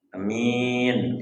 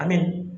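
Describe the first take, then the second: First: The first vowel is short, the second long. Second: Both vowels are short. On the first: It means honest. "Kalau hanya pendek, minyak panjang" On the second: It means safe. "kalau hanya pendek, minyak pendek"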